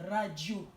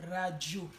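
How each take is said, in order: No difference in how they are said.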